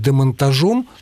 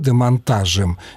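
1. Последний слог ударный. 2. Последний слог безударный. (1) "тогда будет «о». Но так, по-моему, говорить нельзя" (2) "без ударения оказывается «е»"

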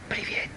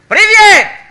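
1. Приветствие произносится тихо и мягко. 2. Приветствие произносится громко и напористо. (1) "я только хочу вам дам маленький привет" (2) "я вам дам большой привет"

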